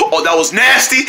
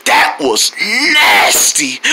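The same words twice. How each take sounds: First: Said in the usual way. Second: Low, slow "nasty", stretched out in disgust; drawn-out NASTY. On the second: Acted. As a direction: stretch the word "nasty" very long. Disgust at pain, stretched versus echo.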